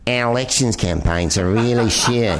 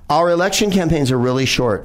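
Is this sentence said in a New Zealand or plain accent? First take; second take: New Zealand; plain. First: It is said in a put-on New Zealand accent. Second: It is said in the speaker's ordinary accent.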